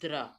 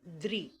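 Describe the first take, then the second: First: The syllable has a short a vowel: dra. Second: The syllable has a short i vowel: dri. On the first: The speaker calls it wrong. "Not द्र" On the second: The speaker calls it right. "द्रि में छोटे ई की मात्रा की आवाज आती है"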